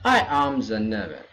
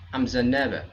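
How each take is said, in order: First: I am is said as two full words. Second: I am is shortened to one syllable. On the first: The speaker calls it wrong. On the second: The speaker calls it right.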